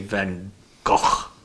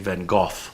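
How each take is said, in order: First: The name is said with a Dutch pronunciation. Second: The name is said with a British pronunciation. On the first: "they say Van Gogh" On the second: "the British say Van Gogh"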